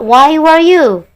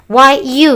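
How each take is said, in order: First: Slow emphatic correction. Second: Said in the usual way. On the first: Shown as a demonstration. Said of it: "Yang benar adalah". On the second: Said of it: "Nggak boleh".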